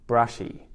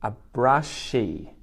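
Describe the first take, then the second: First: Said in the usual way. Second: A brushy said slowly and clearly, stressing brushy; deliberate teacher pronunciation; slow model word. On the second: Shown as a demonstration. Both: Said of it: "this is called a brushy".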